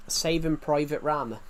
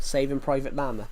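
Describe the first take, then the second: First: "Rama" with an R in place of the L; slip on Rama. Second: "Llama" begun with an L, not an R; corrected Llama. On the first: Player naming an old episode, slipping to "Rama". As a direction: misspeak the title, starting "Rama" with an R. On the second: Player fixing the episode title, saying "Llama" with an L. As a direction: restate the title with an L opening "Llama". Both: Real, not acted. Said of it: "I said Rama instead of Llama".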